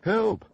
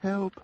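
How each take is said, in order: First: It is said much louder. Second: It is said fairly quietly.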